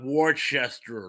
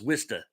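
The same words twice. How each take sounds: First: It is said the way outsiders say it. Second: It is said locally, rhyming with sister. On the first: This is how people from elsewhere say it. The speaker calls it wrong. "like everyone else uh, from the rest of the country pronounces it" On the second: This is how locals say it. The speaker calls it right. "As in, my sister, Krista, got a blister"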